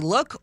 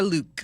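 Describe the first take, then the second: First: It rhymes with 'book', with a short vowel. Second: It rhymes with 'duke', with a long vowel. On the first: "it's either going to be look or Luke" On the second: "it's either going to be look or Luke"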